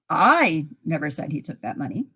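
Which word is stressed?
I. The stress falls on the word I. Somebody else said it. "Somebody else said it"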